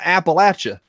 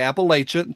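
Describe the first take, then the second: First: It is said the way locals say it. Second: It is said the way outsiders say it. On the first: "Here, it's like throwing an Appalachia" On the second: "Outside of Appalachia, they're going to say Appalachia"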